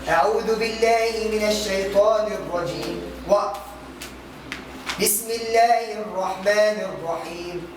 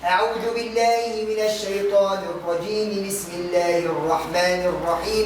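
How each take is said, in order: First: There is a stop between the phrases. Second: The phrases run together without a pause. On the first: "قطع الجميع" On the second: "وصلت الكل ببعض"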